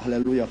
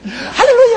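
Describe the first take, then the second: First: It is said calmly and quietly. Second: It is said loudly and excitedly.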